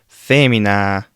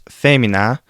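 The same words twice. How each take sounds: First: The A vowel is held longer. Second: The A vowel is held briefly. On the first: "and for the long A" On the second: "For the short A"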